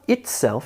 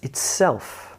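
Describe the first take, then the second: First: The stress is on the first syllable. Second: The stress is on the second syllable. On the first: The speaker calls it wrong. "It's not" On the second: The speaker calls it right. "words with emphasis on the second syllable"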